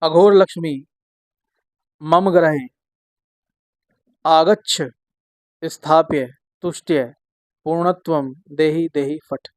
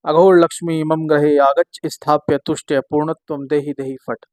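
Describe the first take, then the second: First: The mantra is recited slowly and evenly. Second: The mantra is recited quickly.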